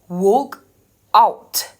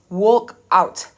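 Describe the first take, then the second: First: Both of the two words are stressed. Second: Only one of the two words is stressed. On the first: It is a phrase of two separate words. "because there is a stress in the A and the O" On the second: It is a single compound word. "In the word, it will be pronounced as walk out"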